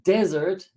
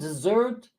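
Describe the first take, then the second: First: The stress is on the first syllable. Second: The stress is on the last syllable. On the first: A dry, sandy place. "the accent is on the first syllable" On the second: A sweet food eaten after a meal. "accent is on the last syllable. Dessert goes up at the end"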